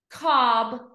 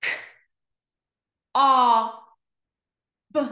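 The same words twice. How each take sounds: First: COB joined in one go; blended word. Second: K, o, b as separate letter sounds; long gaps between K, o and b; sounded out slowly. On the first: Teacher blending for pupils, COB as one word. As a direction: say COB whole. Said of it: "read each word fast". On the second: Teacher pointing to each dot, K-o-b sounded out. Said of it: "read each word slow". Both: Shown as a demonstration.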